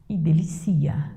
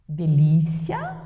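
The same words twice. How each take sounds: First: "delicia" whispered, stress on the third syllable. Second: Slow "Delícia", stress on LÍ; "Delícia" drawn out, stress on the second syllable. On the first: Teacher to class, whispers "delicia", the verb form. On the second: Teacher to class, slowly contrasts "Delícia" with the verb. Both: Shown as a demonstration. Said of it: "Com acento ou sem acento".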